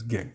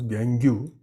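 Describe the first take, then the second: First: The word is said in its standard form. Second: The word is sounded out following its spelling. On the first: The speaker calls it right. "it is pronounced as gangue" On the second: The speaker calls it wrong. "For the spelling, you can pronounce gangue"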